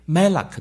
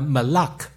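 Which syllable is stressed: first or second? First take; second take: first; second. First: The stress is on the first syllable. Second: The stress is on the second syllable. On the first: It is a noun meaning king. "重音在第一个音节呢就是名词" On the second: It is a verb meaning to reign. "这个是动词，重音在第二个音节"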